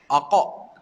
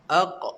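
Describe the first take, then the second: First: The final q is followed by a full vowel. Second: The final q ends with a short light bounce. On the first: The speaker calls it wrong. "Tak nak sebut aqa. Tak, tak betul" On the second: The speaker calls it right. "kita sebut aq"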